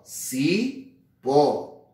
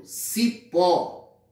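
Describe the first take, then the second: First: "cipó" drawn out slowly, the final "pó" held and stressed; slow stress on final syllable. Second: Said in the usual way. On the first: Shown as a demonstration. Teacher to students, slowly stressing "cipó" on "pó". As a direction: stretch "cipó" so the tonic "pó" stands out. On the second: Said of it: "Sílaba tônica".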